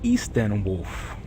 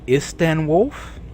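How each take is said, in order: First: The first vowel is a long 'ee' sound. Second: The first vowel is a short 'i' sound. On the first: "maybe put a bunch of E's if it's Easton Wolf" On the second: "I have heard it Isten Wolf"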